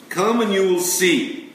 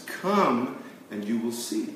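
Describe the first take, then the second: First: "Come and you will see" higher and louder, with "Come" punched; emphatic invitation. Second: Said in the usual way. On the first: Acted. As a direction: call out "Come" as a bold invitation. Quoting Jesus twice.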